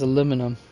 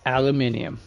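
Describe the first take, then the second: First: The word has four syllables, ending in -inum. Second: The word has five syllables, ending in -inium. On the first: "Only here in the United States do we pronounce it as aluminum" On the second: "This is especially so if you talk to people in the U K"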